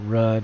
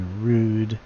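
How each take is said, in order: First: The vowel is short, as in mud. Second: The vowel is long, as in rude. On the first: The speaker calls it wrong. "It's probably not rudd" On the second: The speaker calls it right. "it's probably rude"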